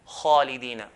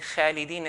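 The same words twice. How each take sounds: First: The first letter is heavy, tongue back raised. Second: The first letter is light, tongue back not raised. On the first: The speaker calls it right. "we say" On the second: The speaker calls it wrong. "instead of saying khalidina fiha"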